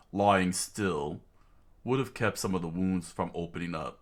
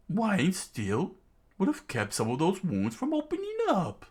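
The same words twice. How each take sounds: First: Said in the usual way. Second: Line said in a much higher villain voice; wrong character voice. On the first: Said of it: "Zolo's, uh, dialogue". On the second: Acted. Kid voices the line as the villain by mistake, higher. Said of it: "that's, uh, Zolo's, uh, dialogue".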